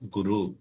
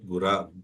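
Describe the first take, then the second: First: The word ends with a 'u' vowel. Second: The word ends with an 'a' vowel. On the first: "but actually it becomes Guru" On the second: "right right pronunciation for that is Gura"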